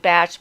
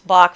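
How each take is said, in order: First: The name ends with a ch sound. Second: The name ends with a k sound. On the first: The speaker calls it right. "it's actually Batch because he was British and that's how his name was pronounced" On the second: The speaker calls it wrong. "People think it's Bach flower essences"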